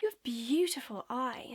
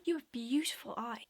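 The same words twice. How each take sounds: First: Slow, louder drawn-out flirting; creepy come-on. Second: Said in the usual way. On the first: Shown as a demonstration. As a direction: imitate a pushy stranger, lingering on "beautiful". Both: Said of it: "Let me just show you what it's like".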